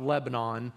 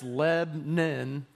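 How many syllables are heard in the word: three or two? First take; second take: three; two. First: The word is said with three syllables. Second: The word is said with two syllables. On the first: This shows the speaker is not from Middle Tennessee. The speaker calls it wrong. "not Lebanon" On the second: This is how locals in Middle Tennessee say it. The speaker calls it right. "two syllables"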